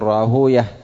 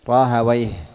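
First: The ending is pronounced as -uyah. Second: The ending is pronounced as -awayh. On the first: This is the form used by hadith scholars. "وأما المحدثون فيضمون ما قبل الواو" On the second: This is the form used by language scholars. "فأما أهل اللغة فيجعلونه من المركب المزجي"

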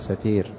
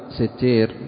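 First: The word has a single t, like fa'il. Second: The word has a doubled t sound. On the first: "النطق الصحيح لها أن يقال فيها ستير، مثل عليم" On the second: "فهذا الشكل ضبطه بعض شراح الحديث من المتأخرين"

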